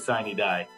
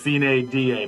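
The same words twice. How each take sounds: First: It is pronounced the common anglicized way. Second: It is pronounced the classical Latin way. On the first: "I hear a lot of people say sine die" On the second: "if you're a purist to the Latin phrase, it is sine die"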